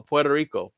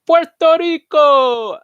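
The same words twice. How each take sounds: First: Said in the usual way. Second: High, loud, drawn-out Spanish accent; hammed-up Spanish accent. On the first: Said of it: "I don't know". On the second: Shown as a demonstration. Host answering a pronunciation question, hammed-up Spanish accent. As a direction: belt it out in an exaggerated Spanish accent. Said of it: "How do you pronounce Puerto Rico in Spanish dialect".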